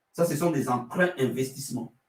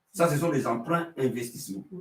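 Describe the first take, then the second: The two takes are said the same way.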